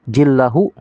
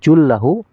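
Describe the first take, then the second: First: The first vowel sounds like i. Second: The first vowel sounds like u.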